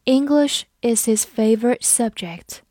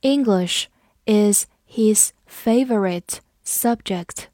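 First: Said in the usual way. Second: Slow and half-whispered, word by word; slow whispered model reading. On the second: Shown as a demonstration. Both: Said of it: "我们慢读一遍".

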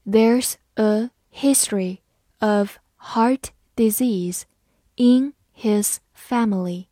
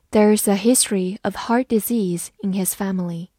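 First: Slow, careful reading, every word clear; read slowly. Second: Said in the usual way. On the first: Shown as a demonstration. Teacher slowly reads the example sentence for students, slow and clear. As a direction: spell the sentence out slowly for learners. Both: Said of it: "慢慢来读".

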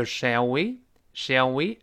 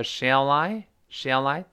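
First: "Shall we？Shall we" slow, words kept apart; no linking. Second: "Shall I？Shall I" slow, L linked into I; slow linking demo. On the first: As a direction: keep "Shall we" separate, slowly. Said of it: "这就不连读了". (慢速示范 "Shall we" 不连读) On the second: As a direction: drag "Shall I" out slowly, L running into I. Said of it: "跟那个I连读". (慢速示范 "Shall I" 连读) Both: Shown as a demonstration.

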